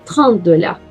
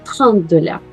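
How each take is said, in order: First: The final t of trente is barely heard. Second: The same.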